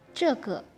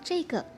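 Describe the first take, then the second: First: The first syllable has a plain 'e' vowel. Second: The first syllable has an 'ei' vowel. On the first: This is how it is written. The speaker calls it wrong. "mereka nggak bilang nake, ceke" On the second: This is how native speakers say it. The speaker calls it right. "mereka akan bilang ceike"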